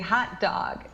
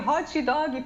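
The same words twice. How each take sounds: First: It ends on the consonant with no added vowel. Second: An extra 'ee' vowel is added at the end. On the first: The speaker calls it right. "say hot dog" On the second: The speaker calls it wrong. "era adicionando esse i no final das palavras"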